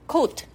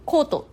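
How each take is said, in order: First: It is said with an English pronunciation. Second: It is said with a Japanese katakana pronunciation. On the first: It names the garment you wear. The speaker calls it right. "英語だとコートになります" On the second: It sounds like the word for a law court. The speaker calls it wrong. "カタカナ英語っぽくコートって言ってしまうと"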